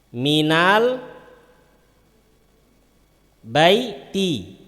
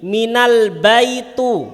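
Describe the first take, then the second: First: The last word ends in an i vowel. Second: The last word ends in a non-i vowel. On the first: The speaker calls it right. "wajib dibaca kasroh" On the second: The speaker calls it wrong. "benar apa salah? Salah"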